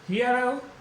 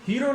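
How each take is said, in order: First: The first vowel glides like in hear. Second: The first vowel is a plain long ee. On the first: The speaker calls it right. "है ई ए, रे ए उ" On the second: The speaker calls it wrong. "हीरो नहीं"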